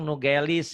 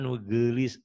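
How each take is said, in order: First: The middle vowel is a plain e sound. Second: The middle vowel is the Sundanese eu sound. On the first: This is how non-Sundanese speakers say it. The speaker calls it wrong. "Kalau orang orang bukan Sunda bilang nugelis" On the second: This is how Sundanese speakers say it. The speaker calls it right. "padahal nugelis, e ada e-nya ya orang Sunda itu ada e-nya"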